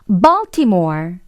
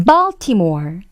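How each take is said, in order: First: It is said in English with an open jaw. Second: The same.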